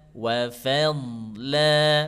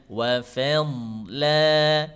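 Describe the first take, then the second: The two takes are said the same way.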